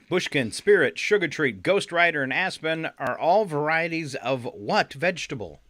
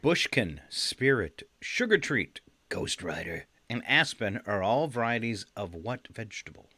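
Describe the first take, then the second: First: It is read at normal speed. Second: It is read more slowly.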